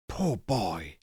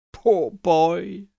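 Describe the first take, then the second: First: Much softer, lower sigh of pity. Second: Pitying. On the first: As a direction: murmur it sadly to yourself. Scrooge pities his younger self. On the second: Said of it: "in pity for his former self". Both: A narrator's reading.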